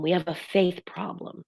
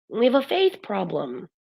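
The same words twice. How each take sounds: First: We HAVE a faith problem; stress on have. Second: Faith punched, have left light; we have a FAITH problem; stress on faith. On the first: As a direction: have leaned on, faith left light. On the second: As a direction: land the word faith firmly. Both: Shown as a demonstration.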